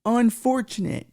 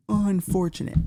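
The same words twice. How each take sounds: First: Drawn-out, higher mock sorrow on "Unfortunate."; hammed-up sorrowful "Unfortunate."; mock lament. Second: Said in the usual way. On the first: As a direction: stretch "Unfortunate." slowly, high, like fake grief. Mock lament over the news.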